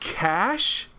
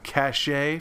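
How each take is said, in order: First: The word is said as one syllable. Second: The word is said as two syllables. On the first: This is the speaker's habitual way of saying it. "I've said cash my entire life" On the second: This is how some other people say it. "or I'm sorry, cachet for those who say it like that"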